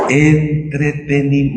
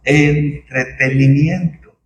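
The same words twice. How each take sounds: First: Half-sung mocking word; mocking singsong. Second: Entretenimiento drawn out slowly, each syllable weighed; slow emphasis. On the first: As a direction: sing it out like a showman, teasing. Burla del espectáculo en iglesias. (palabra medio cantada con burla) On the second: Acted. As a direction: lay the word Entretenimiento down slowly and firmly. Repite la palabra con énfasis. (Entretenimiento dicho despacio y marcado)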